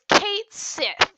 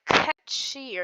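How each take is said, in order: First: The name sounds like 'Kate Sith'. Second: The name sounds like 'Ketchi'. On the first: The speaker calls it wrong. "that's not actually how you pronounce it. That's how everyone says it" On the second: The speaker calls it right. "it's supposed to be pronounced like Ketchi or something"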